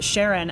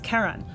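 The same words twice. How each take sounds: First: The first syllable sounds like the start of Charlene. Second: The first syllable does not sound like Charlene. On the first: It follows the discoverer's wife's name. "the community pronounces it Charon after Charlene" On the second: It follows the mythological figure's name. "the correct way to pronounce it in that case is Charon"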